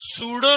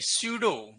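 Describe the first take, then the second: First: It begins with a plain 's' sound. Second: It begins with an 'sy' glide sound. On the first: The speaker calls it wrong. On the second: The speaker calls it right.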